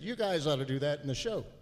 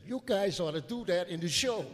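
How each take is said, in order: First: It is said in the speaker's plain voice. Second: It is said imitating the man's manner.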